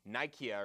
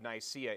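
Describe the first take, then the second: First: The middle consonant is a hard K sound. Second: The middle consonant is a soft S sound. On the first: It follows the original Greek pronunciation. "some people that really, really know ancient Greek" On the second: It follows the usual English pronunciation. "as a good Anglo- anglicized speakers"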